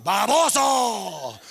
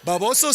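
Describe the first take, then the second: First: "Baboso" loud, high and stretched out; cursing grandma. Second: Said in the usual way. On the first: Shown as a demonstration. Grandma cursing at you, long loud "Baboso". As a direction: hurl "Baboso" like a long curse. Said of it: "sounds like grandma's cursing at you".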